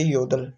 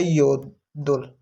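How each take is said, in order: First: Said in the usual way. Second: योदुल said very slowly, syllable by syllable; slow Korean pronunciation demo. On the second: Shown as a demonstration. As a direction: spell out योदुल slowly for learners. (धीमा उच्चारण, योदुल साफ़-साफ़) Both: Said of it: "ये जो बीएप है ये नहीं pronounce किया जाएगा".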